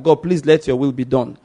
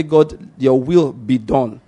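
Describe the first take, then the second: First: Lightly voiced plea at an everyday pace; mild request. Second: Slow, deliberate declaration; authorizing declaration. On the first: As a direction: ask it simply, as a modest request. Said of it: "it wasn't a request per se". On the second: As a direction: declare it with measured authority, word by word. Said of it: "it was an authorization of the will of God". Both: Shown as a demonstration.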